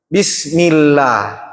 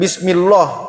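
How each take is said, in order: First: The l sound in Allah is light and thin. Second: The l sound in Allah is heavy and thick. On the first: The speaker calls it right. "maka Allah dibaca tipis" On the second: The speaker calls it wrong. "jadi bukan Bismillah"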